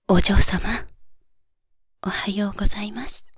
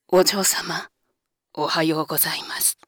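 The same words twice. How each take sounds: First: The voice is at a higher pitch. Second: The voice is at a lower pitch.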